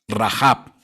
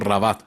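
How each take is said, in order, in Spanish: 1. El nombre termina en sonido b. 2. El nombre termina en sonido t. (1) "Gracias por la corrección" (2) "le estaba diciendo Rabat"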